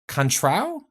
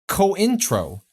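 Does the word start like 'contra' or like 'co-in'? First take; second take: contra; co-in. First: It starts like 'contra', without a separate 'in'. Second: It starts like 'co-in', with a separate 'in'. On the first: The speaker calls it wrong. "pronouncing them improperly" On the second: The speaker calls it right.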